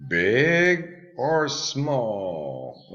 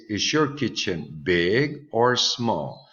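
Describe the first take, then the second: First: Big or small drawn out very slowly; very slow teaching drawl. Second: Slow model question. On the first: Teacher modelling the choice for pupils, very slow and drawn out. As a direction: stretch each word for the class. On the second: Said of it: "remember we have here". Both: Shown as a demonstration.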